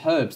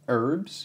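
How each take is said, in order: First: The word starts with a clear H sound. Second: The word starts without any H sound. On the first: "they didn't call them herbs" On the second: "in the U S they don't say the H"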